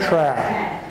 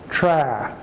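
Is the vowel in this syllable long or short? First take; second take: short; short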